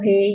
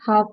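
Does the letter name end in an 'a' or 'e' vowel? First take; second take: e vowel; a vowel. First: The letter name ends in an 'e' vowel. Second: The letter name ends in an open 'a' vowel. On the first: The speaker calls it wrong. "इसको मजहूल तरीका कहते हैं" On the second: The speaker calls it right. "ये तलफ्फुज ... अरबिक के लिए"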